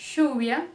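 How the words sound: The ll is pronounced as an sh sound. "o som de X, do nosso X"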